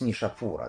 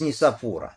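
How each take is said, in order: First: The consonant after the first vowel is sh. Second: The consonant after the first vowel is s. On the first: This is how Russian speakers say the name. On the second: This is the original, non-Russian form of the name.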